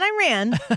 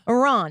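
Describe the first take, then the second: First: Iran is said the anglicized way. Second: Iran is said the Iranian way. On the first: The speaker calls it wrong. "not Iran" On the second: The speaker calls it right. "I appreciate knowing how they say it"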